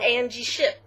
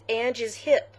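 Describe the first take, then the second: First: The s sound begins the second word. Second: The s sound ends the first word. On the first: The speaker calls it wrong. "I've been saying it wrong this whole time" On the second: The speaker calls it right. "That's what it is"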